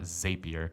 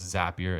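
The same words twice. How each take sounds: First: The first syllable sounds like 'zape'. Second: The first syllable sounds like 'zap'. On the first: The speaker calls it wrong. "It's not Zapier" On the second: The speaker calls it right. "yes, it's Zapier"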